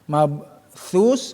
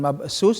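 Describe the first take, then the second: First: The middle consonant is a 'th' sound. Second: The middle consonant is an 's' sound. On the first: The speaker calls it right. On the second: The speaker calls it wrong.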